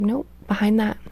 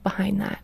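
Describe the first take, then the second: First: Said in the usual way. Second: Soft whispered prompt. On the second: Retold or imitated. Mom retelling her counselor probing her tears, whispered. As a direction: breathe it like a gentle counselor.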